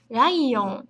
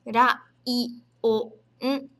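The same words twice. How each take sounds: First: Said in the usual way. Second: "Ra-i-o-n" separado sílaba por sílaba; syllable by syllable. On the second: Shown as a demonstration. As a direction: soletra "Ra-i-o-n" em quatro partes. ("Ra-i-o-n" dito pausadamente, sílaba a sílaba)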